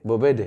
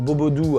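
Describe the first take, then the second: First: The word is said with the local pronunciation. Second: The word is said with a French pronunciation. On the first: This is how the local people say it. "Et eux c'est un bobede" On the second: This is how French speakers say it. "nous on le prononce bobo doux à genre l'européenne française"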